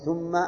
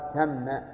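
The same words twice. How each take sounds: First: The first vowel is u, thumma. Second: The first vowel is a, thamma. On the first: The speaker calls it wrong. "أن يضم الثاء من ثم فيقول ومن ثم" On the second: The speaker calls it right. "وظرف مكان أن يقال ثم"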